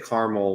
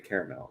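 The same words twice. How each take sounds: First: The word is said with two syllables. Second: The word is said with three syllables. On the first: "I never say caramel when it's the ingredient" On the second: "It has that extra syllable"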